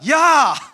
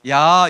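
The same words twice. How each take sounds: First: It is said sharply, with annoyance. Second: It is said plainly, without feeling.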